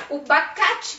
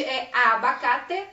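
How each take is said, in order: First: "bacate" without the first a; clipped "bacate" stressed high; wrong form. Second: "abacate" said fully with the first a; slow, full "abacate"; correct form. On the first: Teacher showing the wrong "bacate" to a class. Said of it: "que não é bacate, é abacate". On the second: Teacher giving the correct "abacate" to a class. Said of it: "que não é bacate". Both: Shown as a demonstration.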